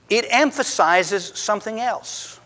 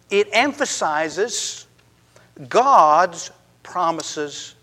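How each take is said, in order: First: Said in the usual way. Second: "emphasizes" drawn out slowly, with "God's promises" slower still; slow stress. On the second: Shown as a demonstration. Preacher correcting the congregation's focus, slow emphatic stress.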